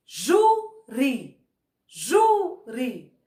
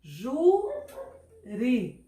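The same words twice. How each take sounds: First: Júri with JU held long and punched, ri dropped; stress on first syllable. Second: Júri split into JU, long pause, ri; stretched-out JU, then a detached ri in Júri; syllable by syllable. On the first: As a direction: hit the JU of Júri hard, let the second syllable fall. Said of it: "O ju saiu com mais força". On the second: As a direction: dictate Júri slowly in two separate syllables, as if writing it. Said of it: "vamos escrever aqui". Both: Shown as a demonstration.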